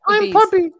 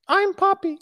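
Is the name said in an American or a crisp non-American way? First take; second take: American; crisp. First: The name is said with a soft, American-sounding middle. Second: The name is said crisply, with a clear p sound. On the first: The speaker calls it right. "You got to be like Pubby" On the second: The speaker calls it wrong. "it's like too pop, like crisp"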